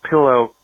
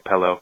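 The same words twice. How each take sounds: First: The first vowel sounds like the i in 'sit'. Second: The first vowel sounds like the e in 'set'. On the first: The speaker calls it right. "It's a pillow" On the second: The speaker calls it wrong. "I say pillow"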